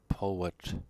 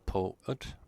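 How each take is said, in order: First: A w glide links the two vowels. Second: The two vowels are said without a w glide. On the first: The speaker calls it right. "we put a W to connect the vowels" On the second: The speaker calls it wrong. "So it is not poet"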